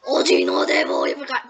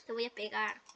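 First: Much lower, loud mock threat; deep mock Mom voice. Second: Soft repeat through laughter; laughing. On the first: Gamer recalls fighting Mom, booms a deep mock threat. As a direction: boom it out like a cartoon mom boss. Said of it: "cuando me enfrenté a Mom". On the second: Retold or imitated. Gamer repeats the mock threat, now softly laughing. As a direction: giggle the threat out quietly.

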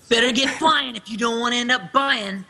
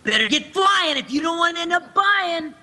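First: Youthful character taunt; casual teen taunt; Hayner line. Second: Put-on higher, more inflected teen taunt; bouncy, high teen taunt. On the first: Acted. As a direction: toss it off as a cocky teen. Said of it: "Is this the Better Get Flying one?". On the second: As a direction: push the inflection up like the director wants. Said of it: "I have to inflect a little more".

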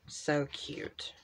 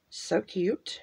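First: So cute, barely voiced, under the breath; whispered aside. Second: Said in the usual way. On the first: Real, not acted. Crafter admiring a sticker page to herself, whispered. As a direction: hush it to yourself.

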